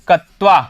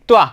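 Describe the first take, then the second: First: A full vowel is sounded after the k. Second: The k runs straight into the t. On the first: The speaker calls it wrong. "कत्वा मत बोलना इसको... ऐसे तो ये दोनों ही गलत हैं" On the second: The speaker calls it right. "यहां पर आपको बोलना है"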